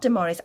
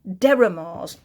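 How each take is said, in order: First: The name begins with the sound 'Dem'. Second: The name begins with the sound 'Der'. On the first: The speaker calls it wrong. "I say it wrong" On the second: The speaker calls it right. "there it is. It's Deramars"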